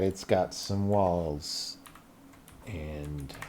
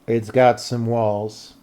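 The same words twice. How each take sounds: First: "It's got some walls" dropped low, soft and slow; quiet, slow. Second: "it's got some walls" slow, with "got" leaned on; emphatic. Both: Shown as a demonstration. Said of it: "Don't you worry about that".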